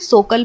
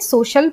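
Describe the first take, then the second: First: The middle consonant is a k sound. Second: The middle consonant is an sh sound. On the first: The speaker calls it wrong. "ना ही हम इसे सोकल पढ़ेंगे" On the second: The speaker calls it right. "हम इसे श की ध्वनि देते हुए सोशल पढ़ेंगे"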